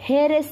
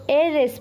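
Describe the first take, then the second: First: The word starts with a clear h sound. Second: The word starts with a vowel, no h sound. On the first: The speaker calls it wrong. "हे रेस नहीं पढ़ा है" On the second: The speaker calls it right. "तो ए रेस पढ़ा है हमने"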